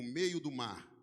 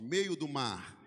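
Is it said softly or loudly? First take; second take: softly; loudly. First: It is said at normal volume. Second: It is said more loudly.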